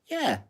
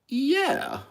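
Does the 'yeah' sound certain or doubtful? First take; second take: certain; doubtful. First: It is said plainly and confidently. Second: It is said hesitantly, with doubt. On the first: "a normal yeah would be yeah" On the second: "it's said with doubt"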